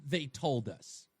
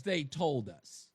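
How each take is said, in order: First: "they" dropped low and slow, leaned on; "they" low, drawn out, pointed; stress on they. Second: "they" again low and slow, leaned on; "they" low, drawn out, pointed; stress on they. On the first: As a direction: lean on "they" slowly. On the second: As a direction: lean hard on "they". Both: Real, not acted. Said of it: "repeated tag stressing they".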